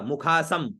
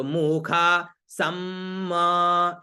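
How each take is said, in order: First: मुखा सम with a short clipped म; wrong ending. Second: मुखा सम with a long held म at the end; correct Vedic ending. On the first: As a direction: cut the final म of सम off short. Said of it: "सम ऐसे नहीं होगा". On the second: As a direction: let the final half म of सम ring on. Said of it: "मुखा सम ऐसे होगा". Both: Shown as a demonstration.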